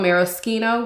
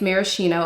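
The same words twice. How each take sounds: First: The word has an Italian pronunciation. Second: The word has an American pronunciation. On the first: "which is the Italian pronunciation" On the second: "the American way is maraschino"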